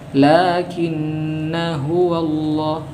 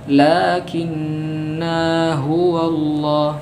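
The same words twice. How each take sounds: First: The 'na' is short and runs straight on. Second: The 'na' is drawn out long before continuing. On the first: The speaker calls it right. "Kalau kita sambung alif ini tidak dibaca" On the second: The speaker calls it wrong. "Bukan ... salah"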